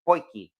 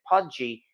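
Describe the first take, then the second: First: The middle consonant sounds like 'k' in key. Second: The middle consonant sounds like 'j' in judge. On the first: This is how South Africans say it. The speaker calls it right. "it's actually pronounced Poiki" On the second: This is how the spelling looks. The speaker calls it wrong. "the spelling looks like Pudgy"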